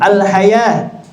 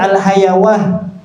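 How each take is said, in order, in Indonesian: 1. Kata itu berakhir dengan a panjang, tidak ada w. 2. Bunyi w terdengar sebelum akhir. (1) "Wawunya diganti dengan alif ya" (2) "tidak dibaca al-hayawah"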